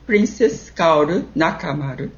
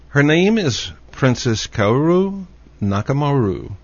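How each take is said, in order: First: "Kaoru Nakamaru" with tapped r and even syllables; Japanese pronunciation. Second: "Kaoru Nakamaru" with American r sounds and English vowels; anglicized name. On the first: Shown as a demonstration. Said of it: "How do you pronounce it?". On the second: Real, not acted. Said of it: "I'm sure I didn't say it correctly".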